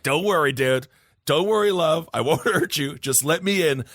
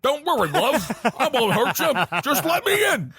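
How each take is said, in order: First: A lightly voiced wrestling villain, at normal pitch; a hint of a creepy wrestling heel; the Fiend from WWE. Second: Put-on Lancashire accent. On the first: Host recasting the entity's plea as a wrestling villain, lightly voiced. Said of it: "like the Fiend from W W E". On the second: Host giving the entity's plea once more, high laughing Lancashire accent.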